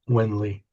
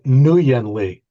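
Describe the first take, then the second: First: The first name begins with a plain 'win' sound. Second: The first name begins with an extra 'nuh' sound. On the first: The speaker calls it right. "it's pronounced Win, like W I N" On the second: The speaker calls it wrong. "I always called it Nguyen Lee"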